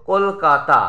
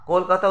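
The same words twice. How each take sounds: First: Said in the usual way. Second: Kolkata broken as কল, কা, তা; syllable by syllable. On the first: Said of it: "Kolkata উচ্চারণ হয়". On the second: Shown as a demonstration. Teacher counting syllables for students, Kolkata split in three. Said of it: "তিনবার ঝোঁক পড়ছে".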